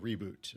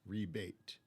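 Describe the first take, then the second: First: The second syllable sounds like 'boot'. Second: The second syllable sounds like 'bait'. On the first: The speaker calls it right. "like rebooting the computer" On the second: The speaker calls it wrong. "Reb eight"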